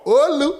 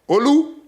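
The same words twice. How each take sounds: First: The name has an American-style pronunciation. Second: The name has its native, non-American pronunciation.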